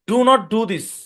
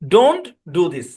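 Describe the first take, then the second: First: Do and not are said as two full words. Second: Do and not are merged into one short word.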